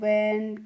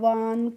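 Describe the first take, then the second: First: The vowel is a short flat 'a' sound. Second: The vowel is a long open 'ah' sound. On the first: The speaker calls it right. "कैसे करना है" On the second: The speaker calls it wrong. "इस तरीके से नहीं pronounce करना है"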